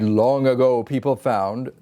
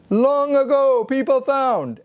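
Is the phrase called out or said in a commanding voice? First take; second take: commanding; called out. First: It is said in a firm, commanding speaking voice. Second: It is called out as if across a distance. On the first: "the voice of authority" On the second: "the ship ahoy voice"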